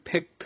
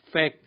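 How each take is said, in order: First: An extra released t sound ends the word. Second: The final t is dropped, not released. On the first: The speaker calls it wrong. "필요 없는 트트트 소리를 끝에 꼭 붙입니다" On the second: The speaker calls it right. "생략하면 됩니다"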